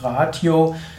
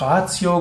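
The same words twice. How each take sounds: First: It is said the classical Latin way. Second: It is said the Church Latin way. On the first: "aus dem klassischen lateinischen Begriff Ratio" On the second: "In Mittellatein oder Kirchenlatein ... der Begriff Ratio geworden"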